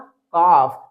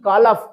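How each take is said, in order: First: There is no l sound before the f. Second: An l sound is heard before the f. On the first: The speaker calls it right. "इसको read करेंगे हम काफ" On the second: The speaker calls it wrong. "ना कि कालफ, ऐसे read नहीं करना है, otherwise ये रॉन्ग प्रोनाउंसिएशन होगा"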